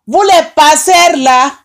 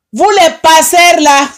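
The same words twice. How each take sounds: The two takes are said the same way.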